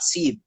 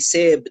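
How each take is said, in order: First: It has a modern Persian 'ee' vowel. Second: It has an Urdu-style 'ay' vowel.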